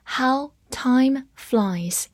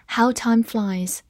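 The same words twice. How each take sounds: First: Drawn out, very slow; very slow reading. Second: Said in the usual way. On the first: Shown as a demonstration. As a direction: stretch every word for learners. (非常慢地朗读) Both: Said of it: "好，慢慢来读".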